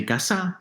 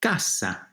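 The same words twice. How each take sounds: First: "casa" stressed on the end, caSÁ; shifted final stress. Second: "Casa" with a strong first CA; stress on second-to-last syllable. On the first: Teacher shows how meaning changes, "casa" stressed on final SA. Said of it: "In fact, if you say casa". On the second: Teacher repeats it so students hear, "Casa" stressed on CA. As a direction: lean on CA in "Casa". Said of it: "second to last syllable". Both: Shown as a demonstration.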